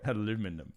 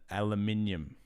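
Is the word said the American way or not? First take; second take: American; not American. First: It is said with an American pronunciation. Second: It is said with a non-American pronunciation.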